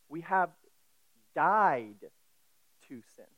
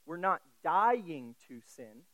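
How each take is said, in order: First: "died" set apart and said louder with a falling finish; stress on died. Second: "dying" drawn out slowly with a rising tune; stress on dying. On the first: Preacher correcting to the past tense, "died" punched. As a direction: hit "died" hard as the settled past fact. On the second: Preacher contrasting the wrong tense for the congregation, "dying" stressed rising. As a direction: lean on "dying" as the wrong reading. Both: Shown as a demonstration. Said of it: "This is a past tense".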